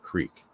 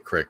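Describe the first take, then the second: First: The vowel is long, rhyming with seek. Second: The vowel is short, rhyming with sick. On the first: "it just made more sense to me to call it a creek" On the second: "I used to say crick"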